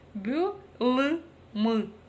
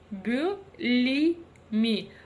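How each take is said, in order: First: The vowels are hard, like Russian ы. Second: The vowels are very soft, like Russian и. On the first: "если мы прочитаем через букву «ы»" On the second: "Если мы прочитаем через букву «и»"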